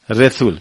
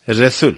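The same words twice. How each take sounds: First: It is said with a Turkmen pronunciation. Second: It is said with a Turkmen pronunciation.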